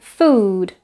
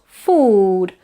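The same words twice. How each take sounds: First: "food" with a fronted, central oo; correct central vowel. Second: "food" with oo far back in the mouth; wrong back vowel. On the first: Teacher correcting food for learners, central vowel. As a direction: say "food" with oo halfway between ee and oo. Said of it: "but food". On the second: Teacher showing the food to avoid, wrong back vowel. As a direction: say "food" with a fully backed oo, as the mistake. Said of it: "not food". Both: Shown as a demonstration.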